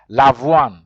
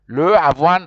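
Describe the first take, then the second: First: The first vowel is dropped, joining the words. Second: Both vowels are sounded, with a break between. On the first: The speaker calls it right. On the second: The speaker calls it wrong.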